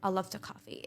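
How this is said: It is said in a sad, flat tone. The speaker does not sound like they mean it. The speaker calls it wrong. "just say in a sad mood"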